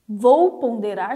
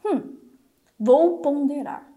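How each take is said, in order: First: Slow deliberate pondering. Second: Slow deliberate thinking. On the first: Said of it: "tem duas formas de você passar pela peneira". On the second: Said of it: "Então o meu cérebro já pensa o quê?". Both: Shown as a demonstration.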